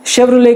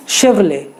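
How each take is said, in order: First: Second Chevrolet ends in a sounded t; common mispronunciation. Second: Chevrolet ending "lay", silent t; correct pronunciation. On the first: Host showing what many people call it, mispronounced. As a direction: say Chevrolet as "shev-ro-let". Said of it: "कई सारे लोग Chevrolet कहते हैं". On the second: Host teaching the brand's proper name, careful pronunciation. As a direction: say Chevrolet as "shev-r'lay". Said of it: "वो भी गलत है". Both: Shown as a demonstration.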